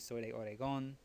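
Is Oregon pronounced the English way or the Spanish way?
Spanish. Oregon is pronounced the Spanish way. "they would say ... the pronunciation gets changed a little bit"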